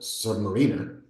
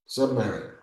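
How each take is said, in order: First: The word sounds like submarine plus er. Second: The word sounds like sub plus mariner. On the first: He rides in a submarine. The speaker calls it wrong. "because he's not in a submarine" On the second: He lives below the sea. The speaker calls it right. "He's below the marine"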